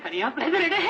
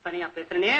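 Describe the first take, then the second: First: Rising, hammed-up wail; wailing self-talk. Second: Low, dismayed realisation; low self-talk. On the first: Poet frightened at talking to himself, rising wail. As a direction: let the realisation climb into a whimpering cry. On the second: Acted. Poet catches himself talking alone, low dismayed self-talk. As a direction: notice it to yourself, voice pitched down.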